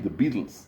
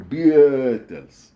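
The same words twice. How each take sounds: First: Said in the usual way. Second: "[name]" drawn out slowly and loudly as "Bee-eh-tles"; misspelled-name reading. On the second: Shown as a demonstration. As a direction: stretch the middle of "[name]" into an extra "eh". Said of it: "is read as".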